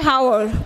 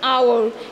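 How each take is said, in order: First: The word begins with an h sound. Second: The word begins with a vowel sound. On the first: The speaker calls it wrong. "we don't say hour" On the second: The speaker calls it right. "we say hour. Here the beginning letter of the word H is silent"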